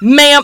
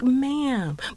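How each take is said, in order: First: It is said intensely, with a hard M. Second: It is said lightly and softly.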